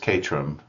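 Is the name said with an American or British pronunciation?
British. It is said with a local British pronunciation. "how the locals say it there"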